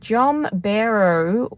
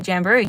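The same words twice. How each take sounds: First: "Jomberu" said slowly and haltingly, with the first vowel as "o"; mispronounced name. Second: Said in the usual way. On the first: Real, not acted. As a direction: stumble over "Jomberu" slowly, unsure of the sounds. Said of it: "which I can't pronounce". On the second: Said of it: "That was so stupid".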